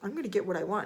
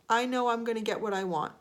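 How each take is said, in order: First: It sounds cocky, boastful and arrogant. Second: It sounds calm, sincere and quietly certain.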